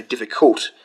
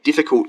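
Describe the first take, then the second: First: "difficult" with the stress moved off its first syllable; misplaced stress. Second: Said in the usual way. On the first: Shown as a demonstration. Learner showing viewers a wrongly stressed word, misplaced stress on "difficult". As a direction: put the weight late in "difficult", diffiCULT. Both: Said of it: "you don't say difficult".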